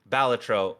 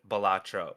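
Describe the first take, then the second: First: The stress does not fall on the middle syllable. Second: The stress falls on the middle syllable. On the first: This is the pronunciation its creator intended. "the creator has come out and said it is technically Balatro" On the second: This is how most people say it. "most people pronounce it Balatro"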